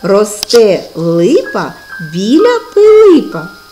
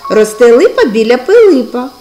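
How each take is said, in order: First: It is said at a slow pace. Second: It is said at a faster pace. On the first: "промовимо цю скоромовку в повільному темпі" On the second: "А тепер швидше"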